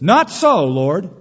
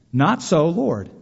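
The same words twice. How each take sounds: First: Loud high protest on Not so; Peter's refusal. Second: Said in the usual way. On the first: Retold or imitated. Peter refusing God in the vision, loud high protest. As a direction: refuse the Lord sharply. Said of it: "Peter ... says". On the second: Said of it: "That is a perfect contradiction".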